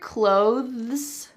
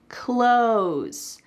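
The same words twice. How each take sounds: First: The word is said with a clear 'th' sound. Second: The word sounds like 'close', with no 'th' sound. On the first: "Do you hear clothes?" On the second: "that T H is really cut out completely. It sounds exactly like close"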